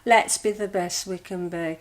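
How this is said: It is said in a glum, sad tone.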